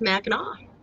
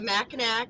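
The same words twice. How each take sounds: First: The name is said the local way. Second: The name is said the outsider way. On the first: The speaker is from the area. The speaker calls it right. "is pronounced Mackinac" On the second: The speaker is not from the area. The speaker calls it wrong. "The Mackinac is pronounced Mackinac"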